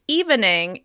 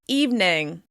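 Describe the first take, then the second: First: The word is said with three syllables. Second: The word is said with two syllables. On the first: "looks like it should be pronounced" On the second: "it's now pronounced"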